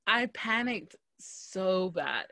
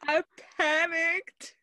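First: Half-speed, back at usual pitch; slow emphatic confession. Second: Much higher, drawn-out, amused squeal of words; laughing high confession. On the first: Storyteller repeats her blunder to friend, slow and emphatic. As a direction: draw every word out for emphasis. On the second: Storyteller confesses to friend her blunder, high and drawn-out. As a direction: stretch it out high, on the edge of laughter. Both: Real, not acted.

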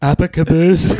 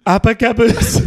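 First: Breaking into laughter mid-impression; laughing through a Trump voice; Trump accent, laughing. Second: Trump impression, held straight and high; brash Trump voice, no laughing; Trump accent. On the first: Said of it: "speak a little in Trump's accent". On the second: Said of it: "That was, that was perfect".

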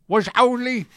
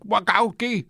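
First: Wachowski said higher and louder, garbled into wa-ZOWR-lee; struggling with Wachowski. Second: Wachowski said as wa-KOW-kee in a thick Scottish accent; struggling with Wachowski. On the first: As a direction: strain over Wachowski, slurring it to wa-ZOWR-lee. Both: Shown as a demonstration. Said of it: "two days of just saying it".

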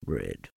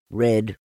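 First: Very low, soft murmur; murmured to himself. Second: Said in the usual way. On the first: A narrator's reading. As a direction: murmur it privately, deep and downcast. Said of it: "he murmured to himself".

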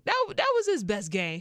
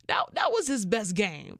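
First: "That, that was his best game" said higher and louder; emphatic repeat. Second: Said in the usual way. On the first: Shown as a demonstration.

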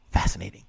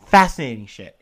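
First: Said in the usual way. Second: FASCINATING punched much louder; loud repeat of fascinating for emphasis; emphatic fascinating. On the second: Shown as a demonstration. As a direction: hit the word fascinating hard and loud.

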